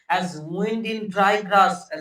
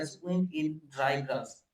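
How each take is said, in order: First: Very slow, louder, drawn-out poem line; loud, slow, hushed-voice poetry reading; dramatic recital. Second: Said in the usual way. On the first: Shown as a demonstration. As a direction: stretch each word like wind through grass.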